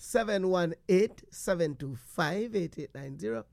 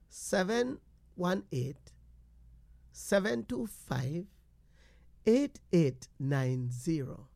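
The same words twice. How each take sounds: First: The number is said quickly. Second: The number is said slowly.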